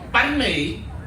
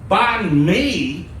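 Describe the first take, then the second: First: The word has a native Vietnamese pronunciation. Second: The word has an anglicized pronunciation. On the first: It means bread. The speaker calls it right. "translated, means bread" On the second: It means something silly in Vietnamese. The speaker calls it wrong. "how other people say it"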